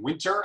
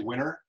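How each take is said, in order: First: The T in the middle is clearly pronounced. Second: The T in the middle is dropped. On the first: "instead of saying winter" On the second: "I drop the T in a lot of words"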